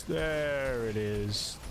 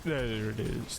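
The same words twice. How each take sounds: First: Very slow, dragged-out orc growl. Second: Orc voice. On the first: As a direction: drawl it out like a satisfied orc. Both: Pretend. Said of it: "The orc voice".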